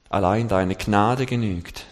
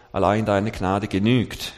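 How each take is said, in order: First: Gnade stressed, slow and weighty. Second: Genügt stressed at the end, slow. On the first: Preacher shows the congregation: stress on Gnade. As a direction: lean on the word Gnade. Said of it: "Betonung auf Gnade". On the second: Preacher shows the second reading: stress on genügt. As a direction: land hard on the word genügt. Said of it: "es genügt, ist groß geschrieben". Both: Shown as a demonstration.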